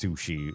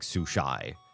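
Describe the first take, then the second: First: The word ends with an 'ee' sound. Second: The word ends with an 'eye' sound. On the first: The speaker calls it right. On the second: The speaker calls it wrong.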